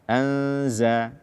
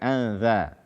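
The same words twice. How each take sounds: First: The middle consonant is a buzzing z sound. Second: The middle consonant is a soft th sound. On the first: The speaker calls it right. "membaca huruf zai dengan tepat sesuai dengan makhrajnya" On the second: The speaker calls it wrong. "bukan anza"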